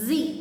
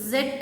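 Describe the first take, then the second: First: The letter name ends with a long ee. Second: The letter name ends with a d sound. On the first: The speaker calls it right. "The right pronunciation of the last letter in the alphabet is Z" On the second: The speaker calls it wrong. "అది జెడ్ కాదు"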